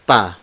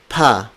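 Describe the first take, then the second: First: "pa" with no puff of air after P; unaspirated P. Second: "pa" with a puff of air after P; aspirated P. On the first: Teacher corrects to "pa" without aspiration. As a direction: say "pa" with a tight, unaspirated P. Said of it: "So it's not pa, it's". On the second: Teacher shows what to avoid, "pa" with aspirated P. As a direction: say "pa" breathed out like "p-ha". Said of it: "So it's not pa". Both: Shown as a demonstration.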